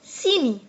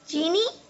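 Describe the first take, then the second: First: The word begins with an 's' sound. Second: The word begins with a 'ch' sound. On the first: This is the Bundeli dialect form. "तो लोग बोलते हैं सीनी" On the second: This is the standard form. "हम लोग बोलते हैं चीनी"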